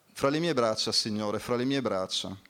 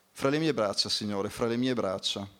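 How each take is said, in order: No difference in how they are said.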